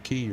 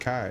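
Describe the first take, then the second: First: The name rhymes with 'see'. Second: The name rhymes with 'eye'. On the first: "pronouncing it Key" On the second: "when I read Kai"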